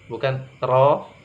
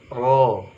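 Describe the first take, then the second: First: The r sound is light and thin. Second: The r sound is heavy and thick. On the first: The speaker calls it wrong. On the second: The speaker calls it right. "huruf ro tebal karena dia fathah"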